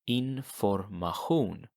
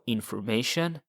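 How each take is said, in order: First: The ending has a throaty ch sound. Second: The ending has an sh sound. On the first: This is the Swedish word. "the sh sound, becomes a ch sound" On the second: This is the English word. "In English"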